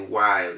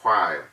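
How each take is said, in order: First: The word starts with a plain w sound. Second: The word starts with a breathy h-like puff. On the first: The speaker calls it right. "So you say while" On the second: The speaker calls it wrong. "you don't say while"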